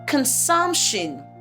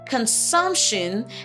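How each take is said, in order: First: The middle consonant is a hissing S sound. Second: The middle consonant is a hissing S sound.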